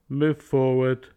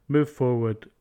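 No difference in how they are said.

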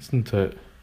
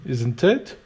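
First: The voice falls at the end. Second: The voice rises at the end. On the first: The speaker is only checking something already known. "It might go down" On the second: The speaker is asking for information. "your voice going up tells them that they need to reply"

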